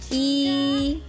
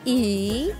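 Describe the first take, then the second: First: It is said with the first tone. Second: It is said with the third tone. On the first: "bentuk pertama" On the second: "Bentuk ketiga"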